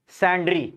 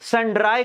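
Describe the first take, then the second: First: The word ends with an 'ee' sound. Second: The word ends with an 'eye' sound. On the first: The speaker calls it right. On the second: The speaker calls it wrong. "सैंड्राई creditors नहीं"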